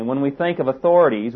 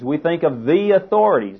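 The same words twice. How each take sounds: First: Said in the usual way. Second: "the authorities" with the pushed a touch higher; stress on THE authorities. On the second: Shown as a demonstration. Preacher contrasting plain authorities with the authorities, stressed. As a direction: lean on "the" to mean police and government.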